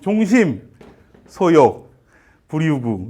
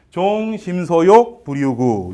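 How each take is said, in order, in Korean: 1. 처음 두 글자 뒤에서 끊어집니다. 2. 처음 네 글자 뒤에서 끊어집니다. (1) "이게 단어로 쓰이다 보니까 이게 이제 뭉쳐서 들립니다. ... 이렇게 읽게 되는 겁니다. 이거 사실은 그렇게 읽으면 안 되죠" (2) "문장 속에서 보면 종심소욕, 불유구 이렇게 읽으셔야 되는데"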